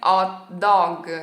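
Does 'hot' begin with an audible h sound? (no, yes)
no. The h at the start is dropped. This is how most Italians say it. "a maioria dos italianos na hora que vão falar em inglês dizem"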